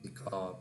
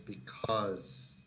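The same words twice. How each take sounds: First: The word ends without a clear z sound. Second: The word ends with a clear z sound. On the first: The speaker calls it wrong. "not because" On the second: The speaker calls it right. "the final sound is z"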